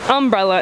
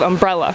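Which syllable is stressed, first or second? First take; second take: first; second. First: The stress is on the first syllable. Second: The stress is on the second syllable. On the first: "syllable stress can shift from second to first syllable" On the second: "instead of"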